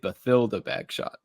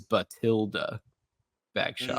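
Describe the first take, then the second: First: The first name has a 'th' sound. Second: The first name has a plain 't' sound. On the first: "some people in the movies may say" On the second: "Jim Dale one hundred percent says"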